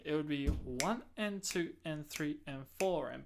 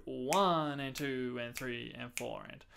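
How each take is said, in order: First: Said in the usual way. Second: Long-short swung count. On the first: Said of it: "If this was not swing". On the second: Shown as a demonstration. Teacher demonstrating a swung count. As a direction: lean on the one, clip the and. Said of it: "turned my quavers into".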